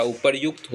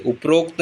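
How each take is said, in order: First: उपर्युक्त with "ryuk", as "uparyukt"; correct form. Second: उपरोक्त with "rok", as "uprokt"; wrong form. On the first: Teacher giving the correction, उपर्युक्त said as "uparyukt". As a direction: say "yu" before the kt of उपर्युक्त. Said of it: "उपर्युक्त होता है". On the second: Teacher showing the mistake, उपरोक्त said as "uprokt". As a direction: say an o before the kt of उपरोक्त. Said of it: "उपरोक्त नहीं होता". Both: Shown as a demonstration.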